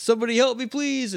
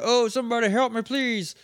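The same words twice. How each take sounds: First: Mock cry for help. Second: High, pleading call for help, fading on please; mock cry for help. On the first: Man hanging off a cliff calling out, high mock plea. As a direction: wail it like a man in trouble. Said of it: "and it's". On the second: Retelling the cliff man's cry, high mock plea. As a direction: whine it like a stranded man. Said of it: "we hear, a".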